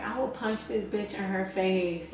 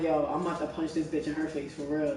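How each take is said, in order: First: Retold threat drawn out slowly; imitated girl's threat. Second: Low, soft retold threat; retold own threat. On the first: Imitating the girl on the train threatening to punch, slow mock threat. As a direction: stretch out an imitated threat, without raising the volume. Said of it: "the girl was just getting loud". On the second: Telling how she meant to defend her friend, low understated threat. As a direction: recount your own threat quietly and low. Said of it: "and I'm like".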